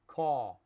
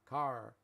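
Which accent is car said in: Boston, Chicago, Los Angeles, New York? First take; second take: New York; Los Angeles. First: It is said in a New York accent. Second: It is said in a Los Angeles accent. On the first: "In New York" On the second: "I'm from Los Angeles. I say car"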